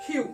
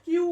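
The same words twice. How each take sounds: First: "কিউ" said with breathy burst, khiu; correct letter Q. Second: "কিউ" with a hard unaspirated k; wrong letter Q. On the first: Teacher correcting the common form, aspirated pronunciation. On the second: Teacher rejecting the common form, wrong pronunciation. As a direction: say "কিউ" with no puff on k. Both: Shown as a demonstration. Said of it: "কিউ বলে কোনো শব্দ নেই".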